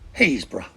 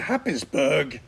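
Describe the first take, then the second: First: It is said shortened, sounding like 'Haysborough'. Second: It is said as written, starting with 'Happis'.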